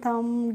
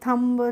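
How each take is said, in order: First: The final b is silent. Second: The final b is pronounced. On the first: The speaker calls it right. "आपको rule पता होगा तभी तो इनको पढ़ेंगे" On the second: The speaker calls it wrong. "हो सकता है कि आपको रूल नहीं पता है"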